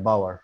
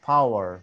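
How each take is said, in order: First: The word begins with a B sound. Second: The word begins with a P sound. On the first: "একজন Arabic কিন্তু পাওয়ার বলতে পারে না, কি বলে বলেন তো সে জায়গায়? বি O W E R" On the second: "যেমন আমরা যেটা বলতে পারি পি ও ডাব্লিউ ই আর"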